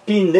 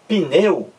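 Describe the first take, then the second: First: "pneu" com o E bem esticado e o U curto no fim; E prolongado. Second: Said in the usual way. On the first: Shown as a demonstration. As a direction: hold the E of "pneu" very long, glide into a short U. ("pneu" com o é demorado, u fraquinho) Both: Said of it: "Você demora mais no é".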